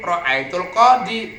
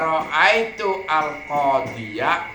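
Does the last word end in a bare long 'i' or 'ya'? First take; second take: bare i; ya. First: The last word ends in a bare long i. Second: The last word ends with a 'ya' sound. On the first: The speaker calls it wrong. "kamu jangan mengucapkan ra'aitu al qadi ... kalau dibaca sukun ya-nya" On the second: The speaker calls it right. "harus dibaca fathah ya-nya ... baru benar"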